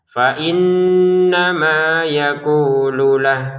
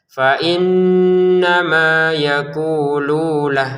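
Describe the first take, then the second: First: The lu syllable is short. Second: The lu syllable is lengthened. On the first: The speaker calls it right. "lu-nya ini yang pendek" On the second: The speaker calls it wrong. "Jangan dibaca"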